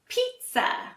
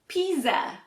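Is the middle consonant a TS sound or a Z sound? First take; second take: TS; Z. First: The middle consonant is a TS sound. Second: The middle consonant is a Z sound. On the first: The speaker calls it right. "we don't pronounce a Z sound at all. It sounds more like a T and S sound" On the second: The speaker calls it wrong. "If you say it like it's spelled"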